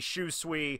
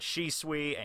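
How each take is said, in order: First: The first syllable is said as 'shu'. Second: The first syllable is said as 'shi'. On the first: The speaker calls it right. "it should be Shusui" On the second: The speaker calls it wrong. "I call it Shisui"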